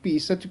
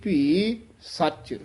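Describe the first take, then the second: First: The words run on without a pause. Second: A short pause comes between the words. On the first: The speaker calls it wrong. "ਭੀ ਸੱਚ ਨਹੀਂ ਕਹਿਣਾ" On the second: The speaker calls it right. "ਇੱਥੇ ਥੋੜਾ ਜਿਹਾ ਠਹਿਰਾ ਦੇ ਕੇ ਫੇਰ ਨਖੇਰ ਕੇ ਬੋਲਣਾ ਹੈ"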